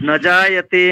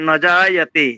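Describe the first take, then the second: The two takes are said the same way.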